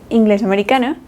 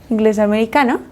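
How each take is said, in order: The two takes are said the same way.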